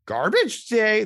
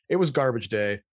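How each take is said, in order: First: Higher, louder mock movie line; hammed-up movie-scene exclamation; movie quote. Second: Said in the usual way. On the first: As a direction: belt it out like a famous film quote. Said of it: "There's a, a whole movie scene".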